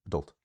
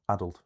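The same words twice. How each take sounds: First: "adult" stressed on the second syllable; light "a", weight on DULT in "adult". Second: "adult" stressed on the first syllable. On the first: Teacher naming the pattern rejected, "adult" with second-syllable stress. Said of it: "rather than". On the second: Teacher naming the pattern that matches, "adult" with first-syllable stress. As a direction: punch AD in "adult", short ending. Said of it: "they match the pattern of". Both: Shown as a demonstration.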